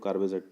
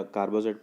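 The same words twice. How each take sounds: First: कार्बेजाइड with an "ay" in the middle, kar-bay-zide; pronunciation variant. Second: कार्बाजाइड with a long "aa" in the middle, kar-baa-zide; pronunciation variant. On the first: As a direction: say कार्बेजाइड with "bay" as the second syllable. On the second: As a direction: say कार्बाजाइड with "baa" as the second syllable. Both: Shown as a demonstration. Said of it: "कुछ लोग कार्बेजाइड पढ़ते हैं".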